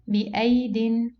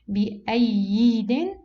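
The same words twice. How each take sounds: First: The second ya letter is not pronounced. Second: The second ya letter is pronounced aloud. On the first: The speaker calls it right. "this ya is uh, cancelled" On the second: The speaker calls it wrong. "do we pronounce it ... No"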